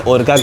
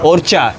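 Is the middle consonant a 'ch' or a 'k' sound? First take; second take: k; ch. First: The middle consonant is a hard k sound. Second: The middle consonant is a ch sound.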